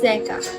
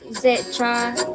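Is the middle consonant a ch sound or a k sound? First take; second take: k sound; ch sound. First: The middle consonant is a k sound. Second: The middle consonant is a ch sound. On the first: The speaker calls it right. "It's Zeka" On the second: The speaker calls it wrong. "Not Zecha"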